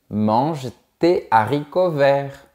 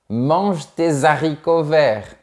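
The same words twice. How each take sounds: First: Tes and haricots are kept apart. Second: A z sound links tes and haricots. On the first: The speaker calls it right. "On dit" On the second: The speaker calls it wrong. "on ne dit pas"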